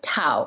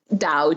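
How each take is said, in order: First: The word begins with a T sound. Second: The word begins with a D sound. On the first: It follows the older Wade-Giles system tied to traditional Chinese. "The Wade Giles form of pronunciation" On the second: It follows the mainland Chinese pinyin pronunciation. "the way to pronounce it in a way that shows you're educated and informed"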